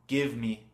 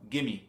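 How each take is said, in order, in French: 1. Les deux mots se prononcent en entier, avec le v. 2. Les mots se fondent en 'gimme', sans le v. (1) "give me, c'est très dur à prononcer très vite" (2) "C'est beaucoup plus facile"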